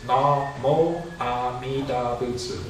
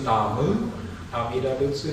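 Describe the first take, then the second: First: The first word ends in an 'o' sound. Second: The first word ends in a 'u' sound. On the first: This is the form used today. "today, it's Namo Amida Butsu" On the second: This is the older form. "When I was young, it was Namu Amida Butsu"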